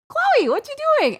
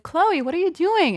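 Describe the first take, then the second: First: Very high, sing-out puzzled call; retold squeal of puzzlement, pitched way up; insistent calling out. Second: High-pitched retold puzzlement; puzzled calling out. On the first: Woman re-asking her silent little cousin in the bush, insistent high call. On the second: Woman spotting her little cousin hiding in a bush, puzzled call. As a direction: call out high, mildly baffled.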